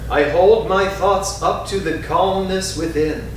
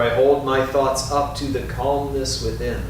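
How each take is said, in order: First: It is spoken in a strong, full voice. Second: It is spoken a little more softly. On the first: "first in a strong voice" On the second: "A little softer"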